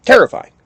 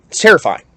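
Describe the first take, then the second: First: Terrifying yelped much higher and louder; emphatic repeat. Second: First plain statement of terrifying. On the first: Repeating to listeners how scary foxes are, high loud yelp. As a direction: shoot Terrifying way up, loud and shocked. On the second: Telling listeners about a fox's call, plain. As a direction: say It's terrifying steadily, no special punch. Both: Shown as a demonstration.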